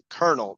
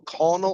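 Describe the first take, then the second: First: The word is not said as it's spelled. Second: The word is said the way it's spelled. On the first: The speaker calls it right. "It's Colonel" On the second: The speaker calls it wrong. "not Col- Colonel"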